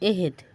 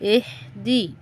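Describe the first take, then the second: First: The word ends on a bare consonant. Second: The word ends with a final vowel.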